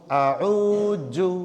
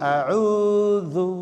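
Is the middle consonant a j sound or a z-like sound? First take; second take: j; z-like. First: The middle consonant is a hard j sound. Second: The middle consonant is a soft z-like sound. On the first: The speaker calls it wrong. "जो लोग बोलते ... आऊजू, हाँ नहीं गलत है" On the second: The speaker calls it right. "ज के नीचे हमने नुक्ता दिया, मतलब यह कि ये जू नहीं है"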